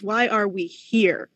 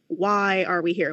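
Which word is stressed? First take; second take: here; why. First: The stress falls on the word here. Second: The stress falls on the word why. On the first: It asks about our place and time. "the astronomer is asking" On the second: It asks about our purpose. "the philosopher is asking"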